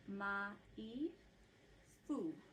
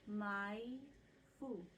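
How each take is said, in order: First: Each syllable is said slowly and separately. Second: The syllables are joined in one smooth phrase. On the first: "I'm slowing it way down. Each vowel gets one sound" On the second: "I'll say it as a phrase"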